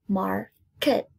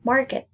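First: MARKET split into mar, ket; syllable by syllable. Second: Said in the usual way. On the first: Shown as a demonstration. Teacher counting two syllables for pupils, syllable by syllable. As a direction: break "Market" in two with a pause. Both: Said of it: "Two syllables".

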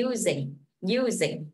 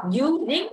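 First: Falling "using", second syllable weaker; stress on first syllable. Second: "using" with second syllable rising instead of falling; mis-stressed "using" that lifts at the end; wrongly stressed both syllables. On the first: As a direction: hit U, let "sing" fall away in "using". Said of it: "âm kia phải xuống giọng". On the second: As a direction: stress both halves of "using", ending upward. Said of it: "Chứ mình không đọc using". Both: Shown as a demonstration.

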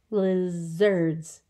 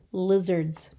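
First: "Lizards" stretched into two even beats; syllable by syllable. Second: Said in the usual way. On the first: Shown as a demonstration. Teacher counting syllables for children, "Lizards" measured out in two. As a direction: sound out both syllables of "Lizards". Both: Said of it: "Two syllables".

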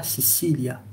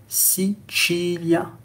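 First: "Sicilia" with an s in the middle, see-see-lya; "Sicilia" with both consonants as s; wrong pronunciation. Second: Slow "Sicilia" with ch in the middle, see-chee-lya; Italian pronunciation. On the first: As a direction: misread "Sicilia" the French way, soft s for c. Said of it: "Ça se lit pas". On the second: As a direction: say "Sicilia" slowly, stretching the chee. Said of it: "on lira". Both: Shown as a demonstration.

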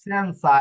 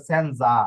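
First: সেনসা with a clear s sound in the middle; সেনসা said with a crisp s; correct Italian pronunciation. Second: সেনজা with a z sound instead of s; the wrong way, সেনজা with z; সেনজা voiced as z, marked as an error; common mispronunciation. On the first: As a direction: say সেনসা with s, not z. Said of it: "এখানে অনেকে উচ্চারণ করে সেনজা, হবে না". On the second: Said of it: "হবে না". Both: Shown as a demonstration.

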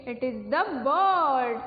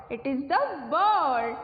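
No difference in how they are said.

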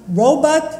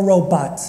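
First: Robot as RO-but; robot, reduced second syllable; first pronunciation of robot. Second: Robot as ro-BAHT; robot, open second vowel; second pronunciation of robot. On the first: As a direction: say robot with a short "but" ending. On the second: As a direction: say robot with a full "bot" ending. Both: Shown as a demonstration. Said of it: "it can be pronounced robot or robot".

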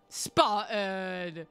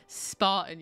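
First: Name stretched very slowly; drawn-out call. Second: Said in the usual way. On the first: Real, not acted. Streamer thanks a viewer, drawn-out call. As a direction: call SPARTAN with long held syllables. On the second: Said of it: "my voice just broke".

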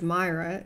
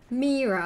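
First: Myra said MY-ra; mispronounced name. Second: Mira said MEE-ra; correct name pronunciation. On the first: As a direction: say Myra with "eye" in the first syllable. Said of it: "some people pronounce it as Myra". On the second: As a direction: stretch the first vowel of Mira as "ee". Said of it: "Uh, just Mira is fine". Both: Shown as a demonstration.

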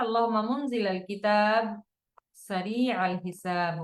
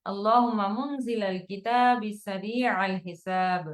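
First: পাঠ দুই ভাগে, কিতাব-এর পর থেমে; "আল্লাহুম্মা মুনজিলাল কিতাব" বলে থামুন, তারপর "সারিআল হিসাব"; broken into two parts. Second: "কিতাবি" শেষে ই যোগ করে টানা এক শ্বাসে; কিতাবি-র জের উচ্চারণ করে সারিআল-এর সাথে মিলিয়ে পড়ুন; joined with kasra. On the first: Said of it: "এখানে ভেঙে ভেঙেও পড়া যেতে পারে". (ভেঙে ভেঙে পড়া, মাঝে বিরতি) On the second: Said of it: "এই দুটোকে একসাথে পড়লে এখানে বায়ে জের দিয়েই পড়ি". (একসাথে মিলিয়ে, জের দিয়ে পড়া) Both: Shown as a demonstration.

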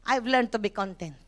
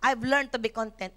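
First: Lower, softer testimony; lower, softer personal testimony; soft personal confession. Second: Soft confession. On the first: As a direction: say it quietly as your own. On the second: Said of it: "Ako, I've learned to be content". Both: Shown as a demonstration.

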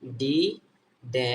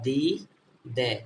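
First: ডি, ডে with a hard retroflex D; hard D sound. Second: দি, দে with a soft dental D; soft D alternative. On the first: Teacher drilling D with E, hard retroflex D. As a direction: say ডি, ডে with the tongue curled back, as separate syllables. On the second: Teacher giving the other reading of D, soft and dental. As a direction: say দি, দে with the tongue on the teeth, spaced out. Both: Shown as a demonstration. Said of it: "অথবা".

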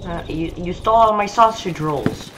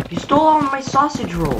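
First: Said in the usual way. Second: Higher-pitched, stress on all; higher indignant repeat. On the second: Shown as a demonstration. Gamer accusing the thief again, higher and outraged. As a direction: push it up in outrage. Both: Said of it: "repeats the line".

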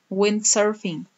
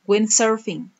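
The two takes are said the same way.

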